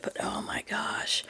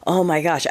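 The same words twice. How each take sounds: First: Breathy whispered oh my gosh, drawn out; exasperated whisper. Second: Said in the usual way. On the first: Real, not acted. Remembering the one-sided friendship, a hushed exasperated whisper.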